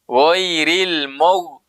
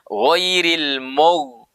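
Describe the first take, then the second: No difference in how they are said.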